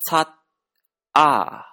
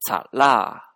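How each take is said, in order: First: The syllables are said separately with a final t. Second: The final t links as an l-like sound.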